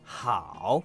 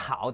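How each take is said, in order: First: The pitch dips low and then rises. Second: The pitch stays low without rising. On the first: "full tone with the rise" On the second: "The 好 doesn't rise"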